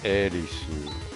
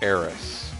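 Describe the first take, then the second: First: The name ends with an su syllable. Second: The name ends with a plain s sound. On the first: "So it would be a su, like Erisu" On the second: "So to me, uh, she is Eris"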